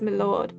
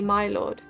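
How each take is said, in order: First: The word 'my' is reduced and slurred. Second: The word 'my' is clearly enunciated. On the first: The speaker is of low birth. The speaker calls it wrong. "only low-born people should say it as" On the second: The speaker is of high birth. The speaker calls it right. "High-born people should enunciate enough to say"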